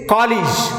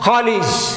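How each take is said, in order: No difference in how they are said.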